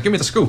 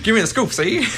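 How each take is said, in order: First: Put-on high, pushy old-time newsman; gangster reporter voice. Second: Put-on high, laughing old-time gangster; hammed-up 1930s mobster demanding a scoop; gangster reporter voice. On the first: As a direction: demand the scoop like a movie gangster. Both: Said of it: "every time you put on that voice".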